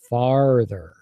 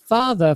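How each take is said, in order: First: The R after the first vowel is strongly pronounced. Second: The R after the first vowel is dropped. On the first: "in North America, we'll say farther. So it's that really strong R" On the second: "if you talk to a British person and they said that word, they would say"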